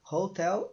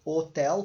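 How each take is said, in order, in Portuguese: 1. A palavra começa com um som de H aspirado. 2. A palavra começa direto com som de vogal. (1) "como é h, h" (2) "como em português, que o H está ali só representando, mas ele não tem som"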